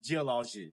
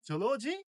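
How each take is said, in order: First: "জিওলজি" as ji-O-lo-ji; correct pronunciation. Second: "জুওলজি" as jo-lo-ji, high; rounded o opening "জুওলজি"; common mispronunciation. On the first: Teacher models "জিওলজি" correctly as ji-O-lo-ji. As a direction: open "জিওলজি" with ji, falling tune. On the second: Teacher shows learners' reading, "জুওলজি" mispronounced as jo-lo-ji. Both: Shown as a demonstration. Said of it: "সঠিক উচ্চারণ হবে".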